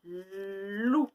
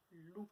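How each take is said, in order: First: Loup. dit fort, voix changée, montante; révéler le mot à l'enfant; mot recollé. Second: Loup. murmuré très doucement; répéter le mot dans un souffle; répété tout doux. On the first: (mot montant) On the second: (mot chuchoté) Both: Shown as a demonstration. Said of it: "j'entends lu et ou".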